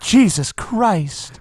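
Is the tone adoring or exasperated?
adoring. It is said in a warm, reverent tone. It expresses devotion. "if I said it adoringly"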